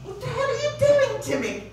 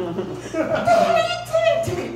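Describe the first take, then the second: First: High yowling cat complaint; mock cat protest, much higher. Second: Very high yowling cat complaint; shrill mock cat wail; cat voice, shriller. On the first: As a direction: whine it like a cat being tormented. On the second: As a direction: push the cat's whine even higher. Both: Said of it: "you get certain sensation like".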